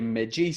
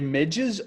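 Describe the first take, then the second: First: The word ends with a long 'ee' vowel. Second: The word ends with a short unstressed vowel. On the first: This is the speaker's own usual pronunciation. "I would always say midgies" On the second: This is the standard pronunciation. "is the real pronunciation midges?"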